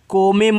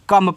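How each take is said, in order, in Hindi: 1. इस शब्द को लिखने में दो अक्षर दिखते हैं। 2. यह शब्द एक छोटे अक्षर में बोला जाता है। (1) "को में मत पढ़ना" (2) "कम पढ़ना"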